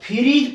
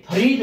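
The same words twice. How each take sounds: First: फ्रीज said as "phi-reez", an extra i after ph; mispronounced फ्रीज with two i vowels; wrong pronunciation. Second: फ्रीज said as "pha-reej", no i after ph; फ्रीज with a short neutral vowel, then long ree; correct pronunciation. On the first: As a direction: put a short i in फ्रीज: "phireej". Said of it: "लेकिन ये फ्रीज नहीं होता". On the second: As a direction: keep the i only on ree in फ्रीज. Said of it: "यानी फ्रीज होता है". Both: Shown as a demonstration.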